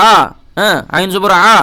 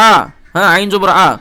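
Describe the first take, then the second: No difference in how they are said.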